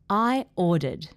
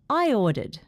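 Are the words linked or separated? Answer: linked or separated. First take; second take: separated; linked. First: The words are said slowly and separately. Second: The words are joined by a gliding Y sound. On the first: "I'm going to say it slowly" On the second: "Then I will say it with intrusion"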